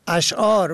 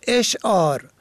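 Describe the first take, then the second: First: "اشعار" pronounced ash'ār; opening A vowel. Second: "اشعار" pronounced esh'ār; opening E vowel. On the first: Radio teacher explains the plural of poem, opening A vowel. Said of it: "اشعار به فتح الف". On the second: Radio teacher contrasts it with the word for poems, opening E vowel. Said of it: "اشعار به کسر الف". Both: Shown as a demonstration.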